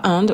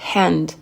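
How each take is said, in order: First: The initial h sound is dropped. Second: The initial h is clearly breathed out. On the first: The speaker calls it wrong. "On ne dit pas hand" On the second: The speaker calls it right. "Le H, il est soufflé"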